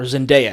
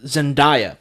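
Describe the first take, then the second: First: Zendaya said zen-DAY-uh. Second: Zendaya said zen-DIE-uh. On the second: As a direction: say Zendaya with an "eye" in the middle. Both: Shown as a demonstration. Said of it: "How do you pronounce her name?".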